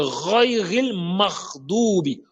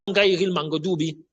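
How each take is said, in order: First: The gh sound is a rasping throat sound. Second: The gh sound is a hard g stop. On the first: The speaker calls it right. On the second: The speaker calls it wrong. "ce n'est pas un go. Comme certains disent"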